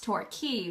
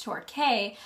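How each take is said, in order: First: "Torquay" as TOR-KEY, rhyming with tea; local Torquay pronunciation. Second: "Torquay" as TOR-KAY, rhyming with day; Torquay as spelt. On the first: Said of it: "apparently it's pronounced Torquay". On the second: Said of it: "I thought it was pronounced". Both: Shown as a demonstration.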